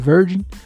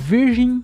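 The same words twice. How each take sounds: First: It is said with English sounds instead. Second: It is read with Portuguese sounds, as spelled. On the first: The speaker calls it right. "deve ser Virgin" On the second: The speaker calls it wrong. "eu não sei se a pronúncia é essa, provavelmente não"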